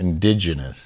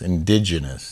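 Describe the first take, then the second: First: The word is said with only two n sounds. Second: The word is said with only two n sounds.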